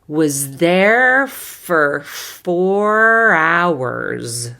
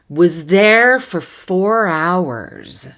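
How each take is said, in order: First: The phrase is spoken slowly and carefully. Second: The phrase is spoken at a moderate speed. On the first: "I'll do it slowly the first time" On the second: "Little faster"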